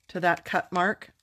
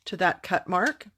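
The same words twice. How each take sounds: The two takes are said the same way.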